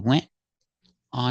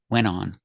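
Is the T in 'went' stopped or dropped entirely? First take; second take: stopped; dropped. First: The T is held as a brief stop. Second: The T is left out completely. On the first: "You can make a stop T and make the position of the T" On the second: "some people don't pronounce the T at all"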